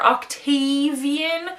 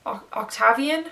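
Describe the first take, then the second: First: "Octavian" as ock-TAY-vee-un, drawn out; long-A pronunciation. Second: "Octavian" tried as ock-TAV-ee-un, questioning; short-A mispronunciation. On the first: Reader tracing a nickname to its name, "Octavian" with a long TAY. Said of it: "is it Tavi, short for Octavian". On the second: Reader testing an odd version of the name, "Octavian" with a short TAV. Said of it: "That's not a word". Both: Shown as a demonstration.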